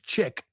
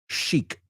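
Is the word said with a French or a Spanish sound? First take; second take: Spanish; French. First: The word is said with a Spanish-style sound. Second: The word is said with a French-style sound. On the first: The speaker calls it wrong. "Nosotros no decimos chic" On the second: The speaker calls it right. "we're trying to sound French"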